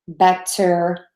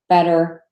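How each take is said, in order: First: The middle consonant is a full, crisp T. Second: The middle consonant is a quick D-like flap. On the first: The speaker calls it wrong. "we do not say" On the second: The speaker calls it right. "we would tend to say a D, which is the flat T"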